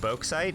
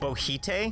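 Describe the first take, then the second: First: The middle has a clear 'ks' sound. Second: The middle has no 'ks' sound.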